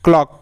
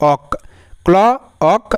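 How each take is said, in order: First: Said in the usual way. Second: "অক", "ক্ল", "অক" as separate chunks; sounding out. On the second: Shown as a demonstration. Teacher splits a word for learners, segmented "ক্ল, অক". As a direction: isolate "ক্ল" and "অক" with a pause between. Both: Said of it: "তাহলে অক সাউন্ডের জন্য".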